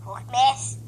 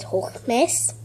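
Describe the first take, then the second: First: Said in the usual way. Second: Hochmess stressed, rising at the end; insistent correction. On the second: Shown as a demonstration. Girl correcting the voice app, stressing hochmess. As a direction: lean on hochmess so the app gets it. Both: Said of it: "I said hochmess".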